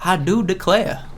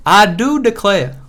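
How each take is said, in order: First: Slow mock Southern belle, rising tune; playful Southern imitation; Michael Scott Southern accent. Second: Slower, higher and louder Southern belle, falling tune; hammed-up Southern belle imitation; Michael Scott Southern accent. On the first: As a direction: drawl out "I do declare" with a rise on "do". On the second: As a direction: push "I do declare" up high and loud, falling on "declare". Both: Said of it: "Where Michael Scott's like".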